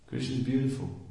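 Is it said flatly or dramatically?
flatly. It is said flatly, without feeling.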